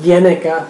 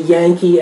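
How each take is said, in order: First: The name is said as three syllables, Yenica. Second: The name is said as two syllables, Yankee. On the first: The speaker calls it right. "The the correct pronunciation is Yenica" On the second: The speaker calls it wrong. "you pronounce the name Yankee a lot"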